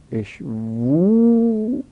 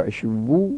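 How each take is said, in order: First: اشوو stretched very slowly, the final و held long and pitched higher; slow, lengthened اشوو with a rising held vowel; drawn-out vowel. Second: Said in the usual way. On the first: Shown as a demonstration. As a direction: sing out the ending of اشوو slowly. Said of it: "اشوو (plain take before)". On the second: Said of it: "اشوو (drawn-out repeat)".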